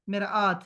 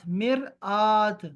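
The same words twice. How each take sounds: First: Said in the usual way. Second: مرآت stretched very slowly, each sound clear; drawn-out مرآت. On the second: Shown as a demonstration. Teacher drills the class on the word, slow and clear. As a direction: say مرآت slowly for students to copy. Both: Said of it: "مجھے لفظ صحیح چاہیے".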